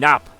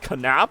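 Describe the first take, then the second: First: The word starts with a plain N, no K. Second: The word starts with a K followed by N. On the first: The speaker calls it wrong. "I kept saying nap... that's a silent K" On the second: The speaker calls it right. "There is no silent K in German. So I'm like knap"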